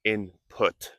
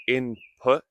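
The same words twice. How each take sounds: First: "input" in two careful beats with a released T; crisp final T. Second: "input" with the final T held back, unreleased; soft final T. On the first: Teacher showing what not to say, "input" with popped T. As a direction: finish "input" on a sharp, audible T. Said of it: "not input". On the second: Teacher showing learners natural "input", final T swallowed. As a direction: end "input" on a stopped, silent T. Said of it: "Notice I say input". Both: Shown as a demonstration.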